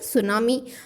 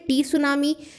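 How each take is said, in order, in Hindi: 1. इस शब्द की शुरुआत 's' की आवाज़ से होती है, 't' नहीं। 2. इस शब्द की शुरुआत 's' से पहले 't' की आवाज़ से होती है। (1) "हम क्या बोलते हैं सुनामी" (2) "हम ये तो नहीं बोलते"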